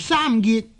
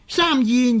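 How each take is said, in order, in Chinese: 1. 第二个音节以 t 音结尾。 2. 第二个音节以 n 音结尾。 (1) "读做三结呢亦系呢是读错了的" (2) "呢个字呢又係应该读做燕"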